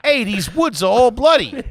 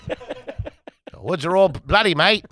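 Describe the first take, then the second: First: High, hammed-up Brooklyn Italian; Brooklyn Italian accent. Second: Slow, badly faked Australian accent. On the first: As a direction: play it as a Brooklyn Italian tough talker. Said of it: "That's my Brooklyn Italian". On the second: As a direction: draw it out in a wobbly attempt at Australian. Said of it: "I'll do an Australian accent". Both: Shown as a demonstration.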